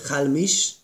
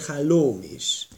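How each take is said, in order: First: The middle o vowel is dropped. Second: The middle o vowel is kept. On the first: The word is bound to a following word. "hogyha smichut összevont formátumban van, akkor halmis" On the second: The word stands on its own. "hogyha nem, akkor halóm is"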